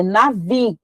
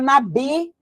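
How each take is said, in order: First: Navi, the V sound, not nabi; correct navi. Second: Nabi with a hard B; the mistaken nabi, B not V; wrong nabi. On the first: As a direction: navi said the Hebrew way with V. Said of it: "o B e o V no hebraico são a mesma letra". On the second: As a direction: nabi pronounced with a plosive B. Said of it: "que é navi". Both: Shown as a demonstration.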